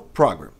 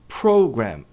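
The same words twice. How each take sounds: First: The stress is on the second syllable. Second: The stress is on the first syllable. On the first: The speaker calls it wrong. "e não program" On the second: The speaker calls it right. "a tônica está no pro"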